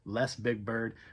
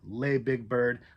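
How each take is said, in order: First: The first word sounds like 'less', with final s. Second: The first word sounds like 'lay', no final s. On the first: "or if it's just Less Big Bird" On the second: "I don't know if it's pronounced lay"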